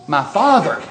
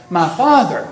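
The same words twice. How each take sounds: First: Father stressed with a falling tune on "My father"; a first, clear call of "My father"; emphatic first take. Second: "my father" louder, with a full falling stress on father; the echoed "my father" pressed home with more weight; stronger second take. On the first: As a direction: say "My father" firmly, landing on father. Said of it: "which gives it some emphasis". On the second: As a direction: lean harder on father in "my father", building on the first. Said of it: "he didn't stop there". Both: Shown as a demonstration.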